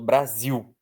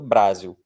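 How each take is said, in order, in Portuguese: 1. A força está na última sílaba. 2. A força não está na última sílaba. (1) "Força na última" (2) "A gente não fala que mora no Brasil"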